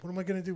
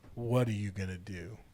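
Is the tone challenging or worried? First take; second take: worried; challenging. First: It sounds worried and unsure. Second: It sounds forceful and challenging.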